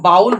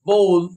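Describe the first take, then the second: First: The vowel is an 'ow' sound. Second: The vowel is a plain 'oh' sound. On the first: The speaker calls it wrong. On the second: The speaker calls it right.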